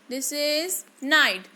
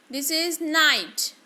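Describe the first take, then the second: No difference in how they are said.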